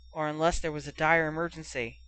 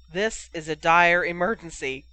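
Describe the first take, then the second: First: Said in the usual way. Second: "This is" punched louder; piping up. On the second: A narrator's reading. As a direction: pipe up insistently, leaning hard on "is". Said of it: "Cole Carey piped up".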